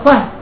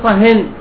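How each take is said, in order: First: The word ends on a bare consonant, no n-sound. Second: The word ends with an added n-sound. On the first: A specific silence is being requested. "مبني على السكون الظاهر" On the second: Silence in general is being requested. "بالتنوين"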